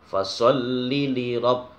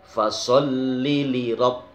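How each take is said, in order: No difference in how they are said.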